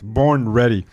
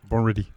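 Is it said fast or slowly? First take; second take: slowly; fast. First: It is said slowly. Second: It is said fast.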